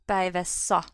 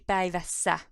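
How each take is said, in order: First: The ending has a back 'a' vowel. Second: The ending has a front 'ä' vowel. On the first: The speaker calls it wrong. "It would be difficult to pronounce" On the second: The speaker calls it right. "so it needs to be"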